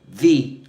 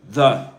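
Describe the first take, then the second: First: The vowel is a full, unreduced vowel. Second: The vowel is a weak schwa. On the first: A vowel sound comes next. "If right after it comes a vowel sound" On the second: A consonant sound comes next. "The with a schwa"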